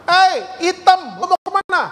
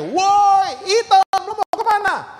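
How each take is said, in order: First: High, raised taunting call; mock shout at a classmate; imitated schoolkid's yell. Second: Very high, stretched-out holler; full-voiced mock schoolyard shout; louder imitated yell. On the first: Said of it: "Temennya dari gerbang sekolah teriak, kencang banget". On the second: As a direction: bellow the taunt with a long high "Woi". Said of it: "lebih kencang teriakannya".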